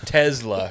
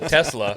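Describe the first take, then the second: First: "Tesla" said as TEZ-la, with a z sound; correct pronunciation. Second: "Tesla" said as TESS-la, with a hissed s; wrong pronunciation. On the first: Correcting a friend at the table, "Tesla" with a z. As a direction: say "Tesla" with a buzzing z in the middle. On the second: Mocking the friend's version, "Tesla" with an s. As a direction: say "Tesla" with a sharp s, the way to avoid. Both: Shown as a demonstration. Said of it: "not Tesla".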